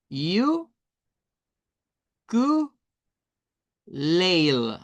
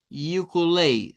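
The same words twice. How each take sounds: First: "You, ku, leil" as three isolated syllables with long pauses; sílaba por sílaba. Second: "Ukulele" joined as one word, you-ku-leil; palabra completa. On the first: («you... ku... leil», sílaba por sílaba) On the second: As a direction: run the three syllables of "Ukulele" together without pauses. («Ukulele» seguido: yu-ku-leil) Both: Shown as a demonstration. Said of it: "Serían tres sílabas".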